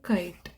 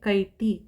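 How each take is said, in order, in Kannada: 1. ಪದದ ಕೊನೆಯಲ್ಲಿ ಬರೀ 't' ಶಬ್ದ ಇದೆ. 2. ಪದದ ಕೊನೆಗೆ ಸೇರಿಸಿದ 'i' ಸ್ವರ ಇದೆ. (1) "ಬರೀ ಇಷ್ಟು ಮಾತ್ರ ನಾವು ಉಚ್ಚಾರಣೆ ಮಾಡೋದು" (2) "ಆ ಥರ ಆಗಲ್ಲ"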